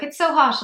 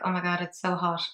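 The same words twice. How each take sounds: First: Mock complaining. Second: Said in the usual way. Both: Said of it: "he's like".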